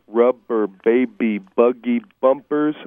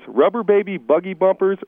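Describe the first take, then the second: First: The phrase is said slowly, every syllable clear. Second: The phrase is said quickly, run together. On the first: "3 times slowly, making sure you clearly and properly enunciate every syllable" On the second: "5 times fast"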